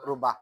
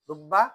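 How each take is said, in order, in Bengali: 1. b ধ্বনিটি ছোট এবং একক। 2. b ধ্বনিটি দীর্ঘ করে ধরা হয় এবং দ্বিত্ব। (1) "আর এক সুরতের মধ্যে শুধুমাত্র জবর" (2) "এক সুরতে তাসদিদ"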